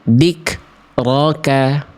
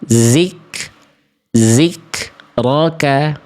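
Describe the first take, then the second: First: The word begins with a d sound. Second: The word begins with a z sound. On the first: "Jangan sampai kita baca begini" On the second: "Jangan sampai juga kita baca zik"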